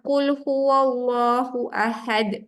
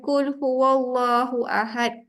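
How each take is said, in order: First: "Qul" said with a light k-like sound; thin "Qul" from the front of the mouth; wrong light qul. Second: "Qul" said as a light kaf; thin front k in "Qul"; light kaf demo. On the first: Teacher demonstrating the wrong light qaf. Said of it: "Jangan anda ringankan". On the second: Teacher showing the mistaken light reading. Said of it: "Kul, jadi makanlah". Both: Shown as a demonstration.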